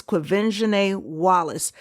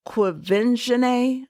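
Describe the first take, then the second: First: Said in the usual way. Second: QUVENZHANÉ drawn out slowly and carefully, pitched up. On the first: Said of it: "say it very slowly". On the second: Shown as a demonstration. Pronouncing a little girl's name correctly for listeners, very slow. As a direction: say Quvenzhané syllable by syllable, unhurried and higher. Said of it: "I have to say it very slowly".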